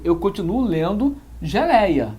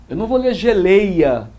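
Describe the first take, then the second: First: Said in the usual way. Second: Geleia said with closed ê, gelêia, louder; mock the wrong reading of geleia as gelêia; pronunciation corrected by teacher. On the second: Shown as a demonstration. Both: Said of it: "Ele não alterou a pronúncia".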